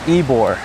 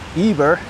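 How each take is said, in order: First: The second syllable has a 'bor' sound. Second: The second syllable has a 'ber' sound. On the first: The speaker calls it right. "but it's Ebor" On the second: The speaker calls it wrong. "I was close to pronouncing it correctly when I said uh"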